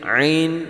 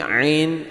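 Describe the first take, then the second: The two takes are said the same way.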